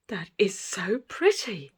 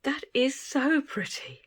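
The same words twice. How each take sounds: First: Slow admiring tone, stress on "pretty". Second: Higher, slow, with "so" drawn out and lifted; stress on so. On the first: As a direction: savour the word "pretty" slowly. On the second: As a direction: lean hard on "so" in awe. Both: Real, not acted.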